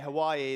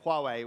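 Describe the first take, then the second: First: The name sounds like the place Hawaii. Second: The name sounds like 'Wah-way'. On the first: The speaker calls it wrong. "I heard someone say Hawaii the other day" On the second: The speaker calls it right. "but it's Huawei"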